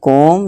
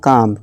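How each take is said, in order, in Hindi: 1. स्वर एक गोल o ध्वनि है। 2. स्वर एक लंबी खुली aa ध्वनि है। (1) "ना कि कोम" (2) "या काम"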